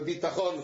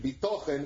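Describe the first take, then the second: First: The word has a Sephardic Hebrew pronunciation. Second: The word has an Ashkenazi Hebrew pronunciation. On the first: It means material, physical security. "con la pronuncia sefardita" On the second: It means trust in God.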